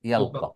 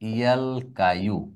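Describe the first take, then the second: First: The word ends with a plain 'a' sound. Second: The word ends with a 'yu' sound. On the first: The speaker calls it right. "তাহলে আর কি হবে উচ্চারণটা?" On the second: The speaker calls it wrong. "ইয়ার উপর যে পেশ করা কঠিন"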